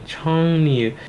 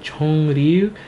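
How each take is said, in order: First: The second syllable begins with an N sound. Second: The second syllable begins with an R sound. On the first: The speaker calls it right. "it makes an in sound" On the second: The speaker calls it wrong. "compared to Chongryu"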